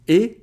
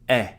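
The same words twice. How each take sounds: First: The vowel is said closed. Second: The vowel is said open. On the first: "If you put the accent aigu" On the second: "If you put the accent grave"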